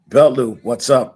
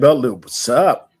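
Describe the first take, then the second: First: It is said in the speaker's plain accent. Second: It is said in a Trinidadian accent. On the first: The speaker calls it wrong. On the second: The speaker calls it right.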